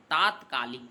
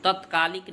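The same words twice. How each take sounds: First: तात्कालिक with a long आ in the first syllable; teacher says तात्कालिक, stretching the opening ता; correct pronunciation. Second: तत्कालिक with a short अ in the first syllable; teacher says तत्कालिक, opening with a short clipped त; wrong pronunciation. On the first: Teacher gives students the right form, clear and careful. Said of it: "तात्कालिक कहा जाता है". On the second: Teacher marks this form wrong for students, clear and careful. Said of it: "तत्कालिक नहीं कहा जाता है". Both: Shown as a demonstration.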